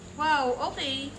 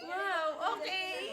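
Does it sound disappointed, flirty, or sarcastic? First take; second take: sarcastic; flirty. First: It sounds sarcastic. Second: It sounds flirty.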